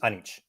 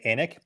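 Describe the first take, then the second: First: The name ends with a ch sound. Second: The name ends with a k sound. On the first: This is the family's own pronunciation. The speaker calls it right. "the real name pronounced it is Anich" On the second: This is how most people say the name. The speaker calls it wrong. "ninety-nine percent of the time people say Anik"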